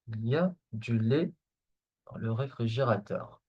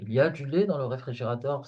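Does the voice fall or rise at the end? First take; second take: fall; rise. First: The pitch falls at the end like a statement. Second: The pitch rises at the end like a question. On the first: It states that there is milk. The speaker calls it wrong. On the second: It asks whether there is milk. The speaker calls it right.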